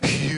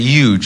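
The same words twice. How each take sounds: First: The word starts with a clear H sound. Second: The word starts without an H sound. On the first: The speaker calls it right. "Like I should be saying" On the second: The speaker calls it wrong. "I don't pronounce the H"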